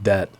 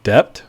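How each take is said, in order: First: No B sound is heard in the word. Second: A B sound is heard in the word. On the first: "like debt without the, the B" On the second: "with the B sound like debt"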